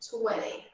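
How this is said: It is said in an American English accent. "No americano parece que é mais popular"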